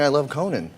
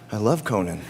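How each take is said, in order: First: It is said brightly and out loud. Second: It is said somberly and quietly to oneself.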